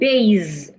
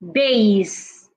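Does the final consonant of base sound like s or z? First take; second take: z; s. First: The final consonant is a z sound. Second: The final consonant is an s sound. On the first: The speaker calls it wrong. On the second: The speaker calls it right.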